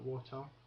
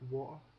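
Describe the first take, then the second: First: The middle T is clearly pronounced. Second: The middle T is left silent. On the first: The speaker calls it wrong. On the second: The speaker calls it right. "if the T's in the middle of a word ... it's silent. So um, water would be a good one"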